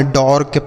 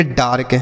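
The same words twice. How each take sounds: First: "डॉर्क" with an open aw, as dork; wrong AW vowel. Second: "डार्क" with a long aa before r; correct AA vowel. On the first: Teacher showing children a misreading of dark, "डॉर्क" as dawrk. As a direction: say "डॉर्क" with aw instead of aa. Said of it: "ऐसे कुछ नहीं पढ़ना है". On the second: Teacher reading out D-A-R-K, "डार्क" with long aa. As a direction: say "डार्क" as daark. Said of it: "इसे हम पढ़ेंगे डार्क". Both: Shown as a demonstration.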